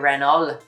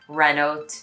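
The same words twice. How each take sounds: First: An L sound is pronounced in the word. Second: A T sound is pronounced in the word. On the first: "you pronounce the L really" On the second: "you're going to pronounce, for example, the T"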